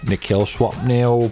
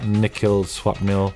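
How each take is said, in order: First: It is said in a put-on British voice. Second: It is said in his own natural voice.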